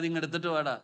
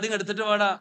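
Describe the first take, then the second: First: The voice is calm and gentle. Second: The voice is sharp and harsh. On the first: It is a mild request. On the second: The speaker is losing patience.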